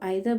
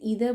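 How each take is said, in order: First: It begins with an 'eye' sound, British style. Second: It begins with an 'ee' sound, American style. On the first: "UK में इसको आइदर बोल रहे हैं" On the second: "US में जाएंगे से ईदर बोल रहे हैं"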